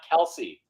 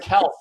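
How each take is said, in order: First: The name ends with an 'ee' vowel. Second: The name ends without an 'ee' vowel. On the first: The speaker calls it wrong. "Not Kelsey" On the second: The speaker calls it right. "his name is actually pronounced Kelf"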